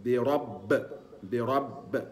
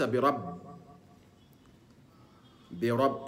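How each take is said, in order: First: برب with the final ب echoing toward fatha; برب, the ب bounced, not toward kasra; correct qalqala. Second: برب with the ب bounced toward kasra; برب, the ب leaning to an i sound; wrong qalqala. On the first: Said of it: "يبقى". (القلقلة الصحيحة نحو الفتح) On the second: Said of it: "وليس". (قلقلة خاطئة نحو الكسر) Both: Shown as a demonstration.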